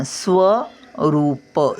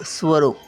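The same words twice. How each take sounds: First: स्वरूप very slow, full व; slow careful syllables. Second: Said in the usual way. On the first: Shown as a demonstration. Grandmother reading to children, very slowly. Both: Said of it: "असं थोडासा व पूर्ण".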